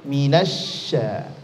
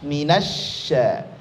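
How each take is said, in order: First: The sh sound is thin and light. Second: The sh sound is thin and light.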